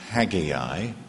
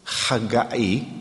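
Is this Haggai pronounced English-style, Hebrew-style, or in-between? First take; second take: English; Hebrew. First: The name is said in traditional English style. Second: The name is said in Hebrew style. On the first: "Traditional English pronunciation is Haggai" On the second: "The Hebrew, I think, is Haggai"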